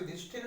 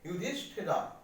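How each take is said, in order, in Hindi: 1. नाम व्यंजन पर खत्म होता है, अंत में कोई स्वर नहीं। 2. नाम के अंत में जुड़ा हुआ 'a' स्वर है। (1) "युधिष्ठिर नहीं पढ़ेंगे"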